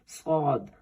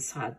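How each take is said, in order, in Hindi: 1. मोटी, भारी s आवाज। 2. आगे के दांतों से बनी हल्की s आवाज। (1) "उसकी आवाज मोटी और भारी हो" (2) "सीन यानी आगे के दांतों से निकालती हूँ, वो गलत है"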